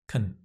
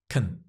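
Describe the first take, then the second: First: The word is unstressed with a reduced vowel. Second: The same.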